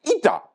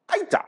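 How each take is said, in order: First: "Ita" with an "ee" start, high; ee-ta pronunciation. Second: "Aita" begun with an "eye" sound; eye-ta pronunciation. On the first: Comedian checking how to say "Ita", high ee-ta pronunciation. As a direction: pronounce "Ita" as ee-ta, pitched up. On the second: Comedian checking how to say "Aita", eye-ta pronunciation. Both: Shown as a demonstration. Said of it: "Am I saying it correctly?".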